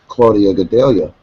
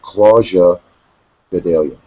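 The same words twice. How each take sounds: First: The name has an American-style pronunciation. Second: The name has a non-American pronunciation. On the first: "as an American, say" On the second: "Rogan and Goldie were pronouncing it"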